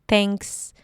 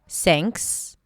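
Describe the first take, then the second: First: It starts with a T with the tongue touching the teeth. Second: It starts with a hissing S sound. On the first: "maybe a dental T" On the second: "people substitute it with an S"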